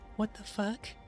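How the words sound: It is said in a put-on imitation voice. The speaker calls it right. "try to do the [name]. I mean the uh, [name] voice"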